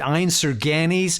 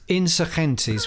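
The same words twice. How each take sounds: First: It is pronounced with an American accent. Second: It is pronounced with a Spanish accent. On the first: "they were pronouncing it Insurgentes" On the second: "which is the, the Spanish"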